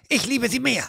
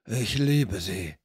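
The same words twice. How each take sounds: First: High, snippy rival thug. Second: Low, slow rough thug. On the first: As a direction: snap back high and petty. (der andere Ganove hinter der Tür: hoch und zickig) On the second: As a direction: drag it out low and sulky. (Ganove hinter der Tür: tief und langsam) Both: Acted. Thugs quarrel behind the door.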